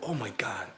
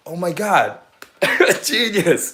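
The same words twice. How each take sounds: First: Said in the usual way. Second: Louder and higher, thrilled; excited exclamation. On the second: Real, not acted. Reacting to her own genius idea, excitedly. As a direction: burst out in delight.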